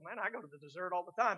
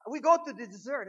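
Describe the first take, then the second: First: Said in the usual way. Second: High, loud mock German accent; booming imitation of a German priest's accent. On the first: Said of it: "and I go". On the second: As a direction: proclaim it in a put-on German accent. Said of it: "that's how he said it".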